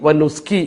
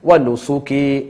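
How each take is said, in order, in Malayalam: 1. s-ന് ശേഷമുള്ള സ്വരം ഒഴിവാക്കുന്നു. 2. s-ന് ശേഷമുള്ള സ്വരം വ്യക്തമായി ഉച്ചരിക്കുന്നു.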